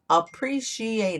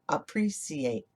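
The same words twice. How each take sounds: First: The middle consonant is an sh sound. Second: The middle consonant is an s sound. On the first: "The C I together makes the sh sound" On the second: "in England they say appreciate"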